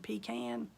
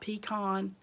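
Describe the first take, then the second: First: The second syllable sounds like 'can'. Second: The second syllable sounds like 'con'. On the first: The speaker calls it right. "I said pecan" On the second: The speaker calls it wrong. "not pecan"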